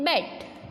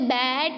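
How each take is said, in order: First: The vowel is said short. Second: The vowel is said long. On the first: The speaker calls it right. "हम क्या बोलते हैं इसे" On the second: The speaker calls it wrong. "अब हम इसे बैट नहीं बोलेंगे"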